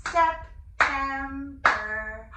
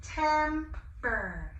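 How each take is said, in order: First: Sep-tem-ber drawn out, each syllable split and punched for a clap; clapped syllables. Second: Said in the usual way. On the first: Shown as a demonstration. Teacher clapping out September's syllables for preschoolers, syllable by syllable. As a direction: say September very slowly, one beat per syllable. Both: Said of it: "Let's clap it".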